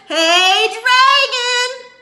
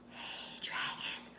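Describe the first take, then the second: First: It is shouted very loudly. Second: It is whispered very softly.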